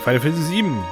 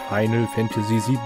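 First: The title is pronounced sloppily and unclearly. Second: The title is pronounced carefully and clearly. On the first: The speaker calls it wrong. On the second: The speaker calls it right.

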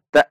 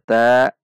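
First: The syllable ends with a pressed glottal catch. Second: The syllable ends without a pressed glottal catch. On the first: The speaker calls it right. "masuk ke hamzah sukun, ada tekanan" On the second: The speaker calls it wrong. "bukan dibaca ta"

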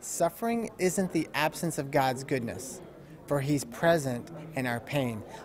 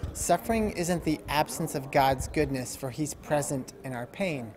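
First: It is said slowly and deliberately. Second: It is said at a normal pace.

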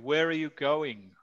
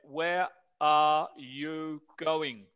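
First: It is said at natural speed, words joined. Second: It is said slowly, each word clear.

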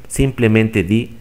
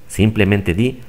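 The two takes are said the same way.

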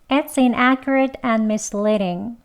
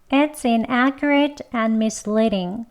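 The two takes are said the same way.

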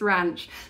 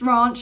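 First: The word is said in a plain, non-posh way. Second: The word is said in a posh-sounding way. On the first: The person saying it is not upper-class. "and if you're not, it's ranch" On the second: The person saying it is upper-class. "if you're posh, it's ranch"

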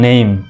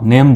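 First: The vowel glides from e to i. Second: The vowel is a short plain e sound. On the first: The speaker calls it right. "সঠিক উচ্চারণ হলো নেইম।" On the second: The speaker calls it wrong. "আমরা সাধারণত নেম বলি, ... কিন্তু এটি হলো ভুল উচ্চারণ।"

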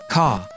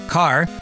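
First: The word ends on a vowel, with no R. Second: The word ends with an audible R sound.

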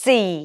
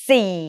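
The two takes are said the same way.

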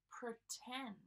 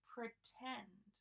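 The two takes are said the same way.

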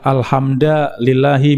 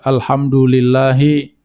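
First: It is said with a changed vowel. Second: It is said with the standard vowels. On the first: The speaker calls it wrong. "ini merubah harokat, tidak boleh, ini kesalahan besar" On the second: The speaker calls it right. "membaca alhamdulillahi"

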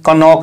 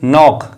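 First: The word begins with a k sound. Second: The word begins with an n sound. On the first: The speaker calls it wrong. "इसीलिए हमने इस word को कनॉक नहीं पढ़ा है" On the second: The speaker calls it right. "इस word को हम पढ़ेंगे नॉक, क्योंकि के क्या होता है, साइलेंट होता है"

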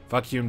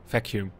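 First: The word sounds close to 'fuck you'. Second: The word sounds clearly like 'vacuum'. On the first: The speaker calls it wrong. "When you say Vacuum, it sounds like fuck you" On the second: The speaker calls it right. "Yeah, exactly"

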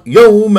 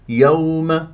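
First: The vowel is pushed out with force. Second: The vowel glides softly and smoothly. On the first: The speaker calls it wrong. "يوم غلط، لا تنبرها" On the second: The speaker calls it right. "يوم هكذا بهذه الطريقه"

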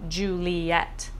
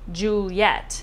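First: The name is said with three syllables. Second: The name is said with two syllables. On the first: "instead of 3" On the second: "make Juliet's name 2 syllables"

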